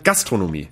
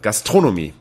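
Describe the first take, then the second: First: The stress is not on the second syllable. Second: The stress is on the second syllable. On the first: The speaker calls it wrong. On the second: The speaker calls it right. "Immer auf der zweiten Silbe"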